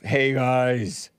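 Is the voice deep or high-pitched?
deep. The voice is deep and gruff. The speaker calls it right. "the deep voiced, gruff"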